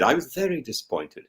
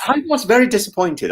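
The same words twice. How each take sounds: First: Quieter, deflated repeat; a soft, deflated echo; softer disappointed repeat. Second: Said in the usual way. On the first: Real, not acted. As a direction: let it fall away softly.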